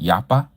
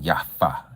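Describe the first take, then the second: First: The middle consonant is a P sound. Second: The middle consonant is an F sound. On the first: "Yapa with a P" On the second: "or with the F sound"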